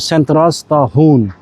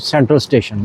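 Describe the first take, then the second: First: The ending sounds like 'stahoon' with a throaty h. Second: The ending sounds like English 'station'. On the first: "Swedish में होगा सेंट्रल स्टाहून" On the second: "English का है"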